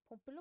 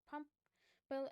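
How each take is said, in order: First: The name is said in a Norwegian accent. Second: The name is said in an American accent. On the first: "commonly known as" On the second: "if you have an American English accent thing"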